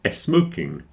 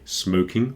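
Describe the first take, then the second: First: A short e vowel comes before the s sound. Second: The word starts directly with the s sound. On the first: "they say smoking" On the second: "They don't say smoking"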